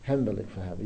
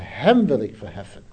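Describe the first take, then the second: First: The stress falls on the word verheffen. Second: The stress falls on the word hem. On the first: It is a plain statement of exalting. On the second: Him, and not soldiers or chariots, is exalted.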